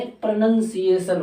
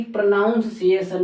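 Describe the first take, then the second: First: प्रोनंसिएशन slowly, with nun second; NUN syllable. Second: प्रोनाउंसिएशन with NOUN as second syllable; OW vowel. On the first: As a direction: say NUN, not noun, in प्रोनंसिएशन. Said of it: "प्रोनंसिएशन होता". (प्रोनंसिएशन में नन, धीरे) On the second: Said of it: "ना कि प्रोनाउंसिएशन नहीं". (प्रोनाउंसिएशन में नाउन) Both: Shown as a demonstration.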